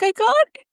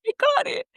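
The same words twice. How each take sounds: First: Very high, rising "I got it"; overjoyed cry. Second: Very high, soft, falling "I got it"; tearful joy. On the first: Telling her waiting dad she got residency, overjoyed. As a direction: burst out the good news. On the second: Repeating the news to her dad, crying with joy. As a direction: let it break into tears. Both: Retold or imitated.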